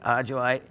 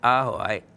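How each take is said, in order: First: The word is said with an English J sound. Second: The word is said with an H sound.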